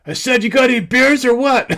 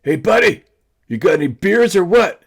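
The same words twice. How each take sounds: First: Much higher, loud put-on yell, breaking into a laugh; louder pushy prank call to the neighbor; disguised shout. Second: Much higher, loud holler across the river; calling out in a disguised voice. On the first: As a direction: holler again, hiding your real voice and cracking up. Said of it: "Without finding my voice". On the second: Retold or imitated. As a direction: yell it in a put-on voice so he won't know you. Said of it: "and I'm like".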